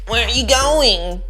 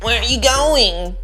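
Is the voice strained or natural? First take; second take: strained; strained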